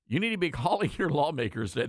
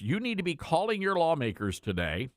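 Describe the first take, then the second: First: Laughing. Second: Said in the usual way. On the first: Real, not acted. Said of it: "The reason I'm laughing".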